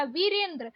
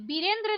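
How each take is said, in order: First: वीरेंद्र starting with v; correct pronunciation. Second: वीरेंद्र starting with b; hard b opening वीरेंद्र; wrong pronunciation. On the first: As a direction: say वीरेंद्र as "Virendra". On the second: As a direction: say वीरेंद्र as "Birendra". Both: Shown as a demonstration. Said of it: "वीरेंद्र नहीं होता".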